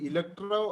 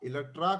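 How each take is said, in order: First: The word ends in an 'o' vowel. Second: The word ends in an 'a' vowel. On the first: The speaker calls it wrong. "അത് ഇലക്ട്രോ അല്ല" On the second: The speaker calls it right. "ഇലക്ട്ര ഇലക്ട്രാ കോംപ്ലക്സും"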